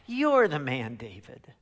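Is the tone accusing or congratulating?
accusing. It sounds like a stern, grave accusation.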